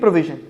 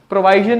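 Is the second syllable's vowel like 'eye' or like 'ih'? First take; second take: ih; eye. First: The second syllable has a short 'ih' vowel. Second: The second syllable has an 'eye' vowel. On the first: The speaker calls it right. "ਪ੍ਰੋਵੀਜ਼ਨ, ਸਹੀ ਆ" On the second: The speaker calls it wrong. "ਪ੍ਰੋਵਾਈਜ਼ਨ ਨਹੀਂ"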